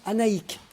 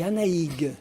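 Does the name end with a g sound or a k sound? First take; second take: k sound; g sound. First: The name ends with a hard k sound. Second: The name ends with a voiced g sound. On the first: The speaker calls it right. "on prononce Anaïk" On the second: The speaker calls it wrong. "ah non, moi, c'est Anaïg"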